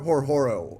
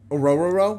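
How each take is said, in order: First: The name is said with audible H sounds. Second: The name is said with silent H sounds. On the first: The speaker calls it wrong. "is just an absolute nightmare for me" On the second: The speaker calls it right. "The H's are silent, so it's just Orororo"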